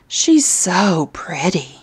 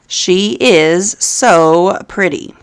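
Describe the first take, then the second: First: She is is contracted to one syllable. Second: She is is said as two full words. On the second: "She is"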